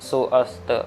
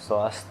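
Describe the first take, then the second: First: The two parts are said separately. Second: The two parts are joined together. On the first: The speaker calls it wrong. "ऐसी आवाज़ नहीं आनी चाहिए" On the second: The speaker calls it right. "जैसे मैंने कहा वैसी आनी चाहिए"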